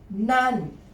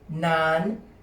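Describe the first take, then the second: First: The word is said with a falling tone. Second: The word is said with a high tone. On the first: "Falling tone" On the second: "High tone"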